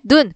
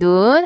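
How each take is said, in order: First: The vowel is said short. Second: The vowel is held long. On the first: It means eye. "그냥 이렇게 짧게" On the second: It means snow. "펄펄 내리는 눈"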